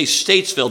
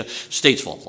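First: Said in the usual way. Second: "Statesville" with the ville swallowed. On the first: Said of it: "they know you're not from around there". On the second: Shown as a demonstration. Preacher showing the congregation how Southerners say it, "Statesville" with swallowed ville. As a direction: say "Statesville" swallowing the last syllable, "ville", down to a short "vul". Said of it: "You gotta swallow the ville".

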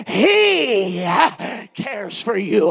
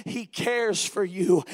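First: "He" loud and long, held out before the rest; stress on He. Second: Said in the usual way. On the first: Shown as a demonstration. Preacher showing how emphasis changes scripture, heavy stress on "He". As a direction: hit "He" hard, stretch it, pause, then "cares for you". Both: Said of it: "you emphasize each word of that".

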